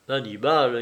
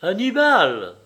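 First: Said in the usual way. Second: Exclamation. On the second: A narrator's reading. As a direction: cry out the name, higher and louder. (s'écrier, appel lancé d'une voix forte) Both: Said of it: "s'écria Jeanne".

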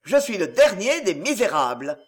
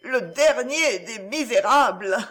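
First: Forceful dictation. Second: Slow, halting admission; forced out word by word, humbled; a slow crushed repeat of the words; slow humiliated repetition. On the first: Acted. Marius dictates the humiliating words. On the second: A narrator's reading. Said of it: "répéta-t-il".

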